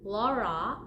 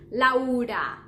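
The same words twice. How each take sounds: First: The first two vowels blend into one sound. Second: An open A and a U are said separately. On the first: The speaker calls it wrong. "if you pronounce Laura, that's the problem" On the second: The speaker calls it right. "We don't mix them like in English, la. Just lau"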